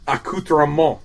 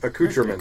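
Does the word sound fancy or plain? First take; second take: fancy; plain. First: It has a fancy, pretentious-sounding pronunciation. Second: It has a plain, ordinary-sounding pronunciation. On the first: "I know how I sound when I say accoutrement" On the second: "As opposed to accoutrements"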